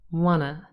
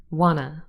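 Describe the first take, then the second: First: The T sound is dropped entirely. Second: The T sound is dropped entirely.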